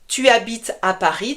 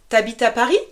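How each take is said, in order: First: The pronoun tu is said in full. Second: The pronoun is shortened to t'. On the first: This is the formal form. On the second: This is the informal spoken form.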